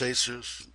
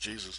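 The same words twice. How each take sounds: First: The name is said with Spanish pronunciation. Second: The name is said with English pronunciation. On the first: "Spanish it's Jesus" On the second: "English it's Jesus"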